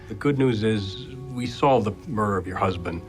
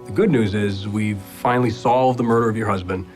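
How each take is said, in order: First: It is said with little emotion. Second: It is said with more emotion.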